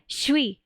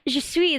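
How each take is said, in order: First: The words are squashed together into one syllable. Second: Both words are said fully and separately. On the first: "they'll say" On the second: "instead of saying"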